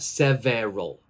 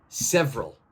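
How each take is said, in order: First: The second E is pronounced, giving three syllables. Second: The second E is silent, giving two syllables. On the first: The speaker calls it wrong. "Not several" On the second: The speaker calls it right. "It's several"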